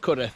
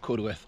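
First: The w, o and r sounds are dropped. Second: The w, o and r sounds are pronounced. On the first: The speaker calls it right. "so it's Cudworth" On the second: The speaker calls it wrong. "it's not Cudworth"

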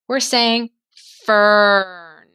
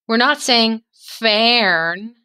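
First: Only the R sound is heard, no separate vowel. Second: A distinct eh vowel is heard before the R. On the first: The speaker calls it right. "We're saying fern. It's making one sound" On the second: The speaker calls it wrong. "we're not saying the E sound, eh? We're not saying fern"

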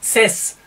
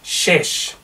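First: The consonant is a pure s sound. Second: The consonant is a blend of s and sh. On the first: The speaker calls it wrong. "es ist nicht Ses" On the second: The speaker calls it right. "eine Mischung aus S und SCH"

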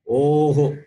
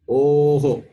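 No difference in how they are said.

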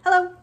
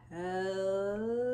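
First: It is said very fast. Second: It is said very slowly.

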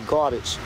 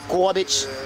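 First: It is said in the speaker's own usual accent. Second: It is said in a New York accent. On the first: This is how the speaker's own group says it. "We say garbage" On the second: This is how people in New York say it. "they had them people sound in New York"

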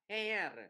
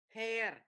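First: The vowel is pronounced like an 'e'. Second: The vowel is pronounced like an 'e'.

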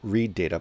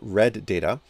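First: Read is said with a long vowel, like reed. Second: Read is said with a short vowel, like red. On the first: An instruction to read the data. The speaker calls it wrong. "not read data" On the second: The data has already been read. The speaker calls it right. "but read data"

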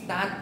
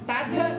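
First: It ends cleanly on the t, no vowel. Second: An extra vowel is added after the final t. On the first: The speaker calls it right. "สตาร์ทเนี่ยให้ถูกต้องเนี่ยต้องไม่มีทึ่งเยอะ" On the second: The speaker calls it wrong. "not, starter"

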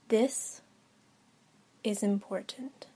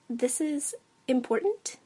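First: It sounds firm and businesslike, not asking. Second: It sounds like a question, rising.

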